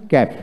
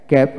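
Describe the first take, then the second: No difference in how they are said.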